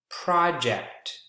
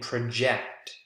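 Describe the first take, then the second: First: The stress is on the first syllable. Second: The stress is on the second syllable. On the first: It is a noun. "the first syllable" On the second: It is a verb. "the second syllable"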